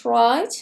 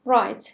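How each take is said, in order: First: "Right" said with a rising, listing tune; first of two takes, rising. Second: "Right" said with a falling, final tune; second take, falling and final. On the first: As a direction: lift the end of "Right" as if more is coming. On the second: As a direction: let "Right" drop to close the list. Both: Shown as a demonstration. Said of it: "اولین کلمه right هستش".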